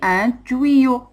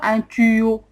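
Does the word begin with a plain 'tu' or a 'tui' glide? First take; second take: tui glide; plain tu. First: The first syllable has the 'ui' glide sound. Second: The first syllable is a plain 'tu' sound. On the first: The speaker calls it right. "On dit un tuyau" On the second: The speaker calls it wrong. "On ne dit pas un tuyau"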